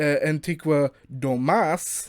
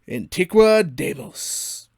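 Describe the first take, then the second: First: The second word sounds like 'doe-mus'. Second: The second word sounds like 'day-mos'. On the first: The speaker calls it right. "It's technically spelled uh" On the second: The speaker calls it wrong. "it's not actually called Antiqua Deimos"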